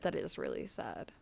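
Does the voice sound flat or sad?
sad. The voice sounds sad and sympathetic. The speaker calls it right.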